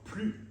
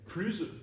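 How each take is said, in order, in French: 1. Le mot se termine sur la voyelle, sans consonne. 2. Le mot se termine par un son z qui vibre. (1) "sans S prononcé" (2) "avec le S prononcé comme un Z"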